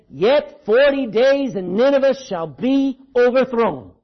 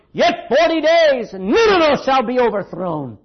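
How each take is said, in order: First: Slow, loud doom proclamation; harsh prophetic warning. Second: Relentless prophetic shout. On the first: Jonah preaching coming wrath to Nineveh, harsh warning. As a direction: proclaim it slowly and loudly, like a prophet. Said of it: "he's preached a harsh, me-, harsh message of warning". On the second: Jonah keeps on going as people cry for mercy, shouting doom. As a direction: shout the warning out like an unrelenting prophet. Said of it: "Jonah just keeps on going". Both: Acted.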